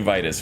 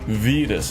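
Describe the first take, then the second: First: The name does not rhyme with fetus. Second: The name rhymes with fetus. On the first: The speaker calls it wrong. "Maybe it's the Roman pronunciation. Maybe that's incorrect" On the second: The speaker calls it right. "like a fetus"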